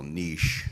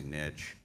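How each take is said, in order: First: Niche as "neesh", a touch louder; Harvard pronunciation. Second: Niche said as "nitch", with a short i and a ch ending; niche as "nitch", quieter and slower; plain nitch. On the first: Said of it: "or if you're from Harvard Law School". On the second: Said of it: "I still say niche". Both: Shown as a demonstration.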